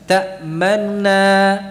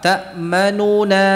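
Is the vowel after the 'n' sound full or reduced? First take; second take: reduced; full. First: The 'nu' vowel is quick, soft and reduced. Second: The 'nu' vowel is full and clearly voiced. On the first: "Yang kedua kurang begitu jelas" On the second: "Yang pertama apa? ... Jelas nu"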